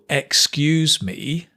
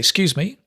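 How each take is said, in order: First: The first syllable 'ex' is fully pronounced. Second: The first syllable 'ex' is dropped. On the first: The speaker calls it wrong. "We don't say that" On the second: The speaker calls it right. "We say excuse me, excuse me. The ek disappears"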